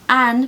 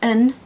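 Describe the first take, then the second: First: The word has a full, strong vowel. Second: The word has a weak schwa vowel.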